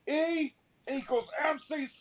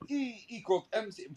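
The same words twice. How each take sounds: First: It is said with a Southern American accent. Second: It is said with a German accent. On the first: The speaker would not be taken seriously. "in like a, a North Carolina accent" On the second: The speaker sounds eloquent and serious. "he sounded eloquent"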